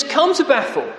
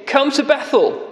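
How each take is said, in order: First: High, sarcastic call to come; mock the people with a lilting invite; mocking invitation. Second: Higher, sneering come-along; mocking invitation. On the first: Preacher voicing Amos mocking worshippers, sarcastic. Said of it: "Amos now starts to mock". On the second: Preacher repeating Amos's jeer at Israel, sarcastic. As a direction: sarcastically invite them to Bethel. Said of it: "So he's mocking".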